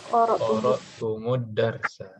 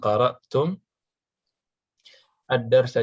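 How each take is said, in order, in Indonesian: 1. Huruf m di akhir mendapat vokal u, lalu tersambung. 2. Kata-kata diucapkan tanpa vokal u penyambung.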